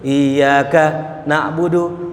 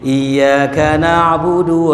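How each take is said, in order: First: There is a pause after iyyaka. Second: The words run together without a pause. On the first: It avoids sounding out a devil's name. "Ada jedahnya" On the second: This is the usual way people know. "Kalau baca iyyaka kan begini"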